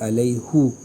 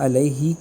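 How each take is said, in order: First: The final syllable ends in a u vowel. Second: The final syllable ends in an i vowel. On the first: "अलैहु हे की पेश से" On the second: "अलैहि की हा के नीचे ज़ेर है"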